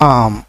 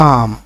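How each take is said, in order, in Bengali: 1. এটা একটি ছোট সিলেবলে বলা হয়, 'am'। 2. এটা একটি ছোট সিলেবলে বলা হয়, 'am'।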